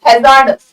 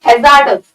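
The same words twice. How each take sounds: The two takes are said the same way.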